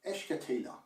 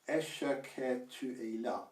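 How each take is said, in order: First: The words are compressed and run together quickly. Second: Each word is said fully and separately. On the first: "when you say it quickly, it essentially merges into one word" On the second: "instead of saying"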